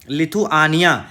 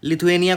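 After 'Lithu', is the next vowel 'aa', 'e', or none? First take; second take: aa; e. First: An 'aa' vowel is heard between 'thu' and 'nia'. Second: An 'e' vowel is heard between 'thu' and 'nia'. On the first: The speaker calls it right. "तो सही पढ़ा करिए" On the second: The speaker calls it wrong. "कुछ नहीं होता है"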